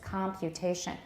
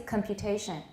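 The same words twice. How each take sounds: First: The first vowel is a full open ah. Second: The first vowel is reduced and weak. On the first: The speaker calls it right. "In American, remember that an O is often ah" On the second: The speaker calls it wrong. "We don't say computation"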